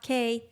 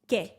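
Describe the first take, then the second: First: The final vowel is long and drawn out. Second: The final vowel is short and clipped. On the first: The speaker calls it wrong. "not que" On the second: The speaker calls it right. "You cut off the E"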